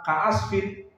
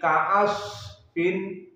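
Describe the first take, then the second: First: The word is said quickly. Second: The word is said slowly and drawn out. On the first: The speaker calls it wrong. "tidak cepat" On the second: The speaker calls it right. "ada jenjang waktu"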